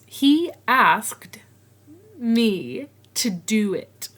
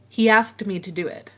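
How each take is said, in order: First: The words are separate, with no added sound. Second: A y-like sound links 'he' and 'asked'.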